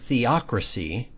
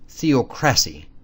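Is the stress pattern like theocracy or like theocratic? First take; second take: theocracy; theocratic. First: The stress pattern is the usual one for theocracy. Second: The stress pattern copies the word theocratic.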